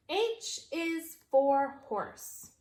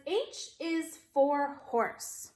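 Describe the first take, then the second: First: Slow read-along pace; slow choral reading. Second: Slow, even model sentence; slow modeled reading. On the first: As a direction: read along slowly together. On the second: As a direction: read it slowly for kids to follow. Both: Shown as a demonstration. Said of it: "Read it with me".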